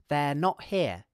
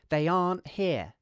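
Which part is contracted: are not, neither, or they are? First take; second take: they are; are not. First: They are is shortened into one syllable. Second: Are not is shortened into one syllable. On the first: "we can contract they are like this" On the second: "we could contract are not"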